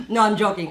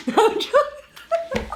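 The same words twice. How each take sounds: First: Said in the usual way. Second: High, slow, laughing. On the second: Real, not acted. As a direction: laugh the words out. Laughs then repeats plainly.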